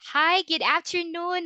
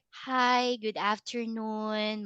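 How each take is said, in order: First: The greeting sounds lively and confident. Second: The greeting sounds flat and bored. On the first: The speaker calls it right. "seems like you are very confident" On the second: The speaker calls it wrong. "it's gonna be very boring"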